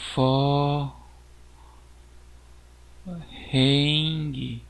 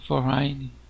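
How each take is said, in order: First: It is read out letter by letter, Portuguese-style. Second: It is said with ordinary English pronunciation.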